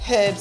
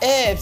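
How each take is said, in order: First: The initial h sound is pronounced. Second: The initial h sound is silent.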